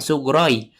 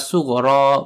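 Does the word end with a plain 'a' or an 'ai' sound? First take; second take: ai; a. First: The word ends with an added y glide. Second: The word ends in a plain long a vowel. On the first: The speaker calls it wrong. "bukan sugroi" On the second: The speaker calls it right. "sebenarnya dibaca alif"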